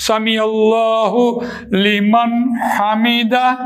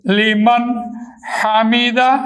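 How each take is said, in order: First: سمیع اللہ لمن حمیدہ drawn out very slowly; prayer recitation. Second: لمن then Hamida split apart with a pause; separated demo. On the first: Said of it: "demonstrates izhar in prayer phrase". (نماز کا کلمہ آہستہ ادائیگی سے) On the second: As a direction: break لمن from Hamida to show the clear ن. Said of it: "نون ساکن کی آواز کے بعد حروف حلقی آ گیا". (لمن حمیدہ الگ الگ کر کے) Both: Shown as a demonstration.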